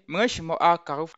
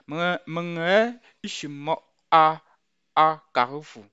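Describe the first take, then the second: First: The two A sounds merge into one. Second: The two A sounds are said separately. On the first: This is how it comes out in normal speech. "comme si euh, les deux A s'y étaient collés" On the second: This is the full, detailed form. "si le détail c'est"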